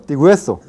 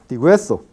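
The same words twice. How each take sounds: First: The vowels merge into one syllable. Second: The vowels merge into one syllable.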